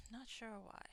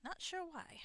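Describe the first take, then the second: First: Said in the usual way. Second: Higher, hammed-up southern accent on "Not sure why"; a self-mocking stab at a southern accent; bad southern accent. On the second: Shown as a demonstration. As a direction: try a Southern accent and miss it a little. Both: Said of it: "I'm having trouble with my bad southern accent".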